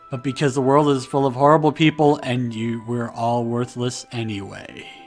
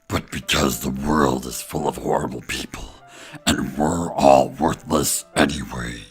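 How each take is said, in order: First: It is said in the speaker's own voice. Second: It is said in a put-on character voice.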